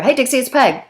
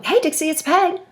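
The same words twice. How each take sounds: First: Quick businesslike hello, straight to the point; just state who's calling, no chit-chat; brisk direct greeting. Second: Bright high sing-song hello, settling in for a long chat; chatty friendly greeting. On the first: Peg calling Dixie, curt and businesslike greeting. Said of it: "if Dixie spoke that way". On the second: Peg calling Dixie for a chat, high chatty greeting. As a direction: greet her like an old friend with time to talk. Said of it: "this is how the conversation tends to go". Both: Retold or imitated.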